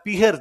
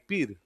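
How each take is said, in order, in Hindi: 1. बीच की 'h' ध्वनि स्पष्ट रूप से उच्चारित होती है। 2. बीच की 'h' ध्वनि पूरी तरह छोड़ दी जाती है। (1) "आप कभी नहीं सुनेंगे मम्मी से" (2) "है खा जाते हैं।"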